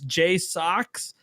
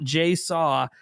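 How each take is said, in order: First: The name ends with a 'socks' sound. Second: The name ends with a 'saw' sound. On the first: The speaker calls it right. "It's J Socks" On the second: The speaker calls it wrong. "not J Saw"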